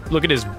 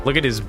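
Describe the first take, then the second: No difference in how they are said.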